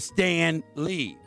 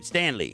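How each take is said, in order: First: The name is said at normal speed, two words. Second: The name is said fast, like one word.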